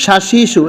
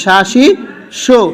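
First: Said in the usual way. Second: শাসিসু drawn out slowly, each syllable apart; slow demo. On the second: Shown as a demonstration. Teacher modelling for pupils, slow syllable-by-syllable শাসিসু. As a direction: stretch শাসিসু out for the student. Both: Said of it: "আমি একটু পড়ি".

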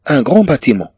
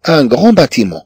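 No difference in how they are said.

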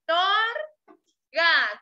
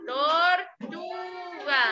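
First: Slow "torga", the middle syllable tu left out; teacher showing the incomplete word "torga"; missing syllable. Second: Very slow "Tortuga", each syllable stretched apart; full word "Tortuga" sounded out slowly. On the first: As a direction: say "torga" slowly as the broken word. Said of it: "solo dice torga". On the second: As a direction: spell out "Tortuga" for small kids, tor-tu-ga. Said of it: "la sílaba tu". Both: Shown as a demonstration.

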